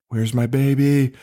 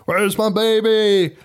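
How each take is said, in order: First: Drawn-out mild retold mother's plea; lightly acted slow "Where's my baby?"; waking mother. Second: Slow, high-pitched mock wail; hammed-up mother's wail. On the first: Podcaster retells horror film's waking mother, mildly acted plea. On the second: Podcaster mimics film mother demanding baby, high hammed-up wail.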